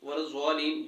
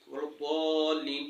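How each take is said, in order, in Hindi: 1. मुख्य व्यंजन 'z' ध्वनि है। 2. मुख्य व्यंजन भारी 'd' ध्वनि है। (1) "ये तीनों नहीं पढ़ने" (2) "यहाँ पर आपने इसको वलद्दाल्लीन पढ़ना है"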